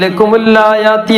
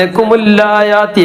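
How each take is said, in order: The two takes are said the same way.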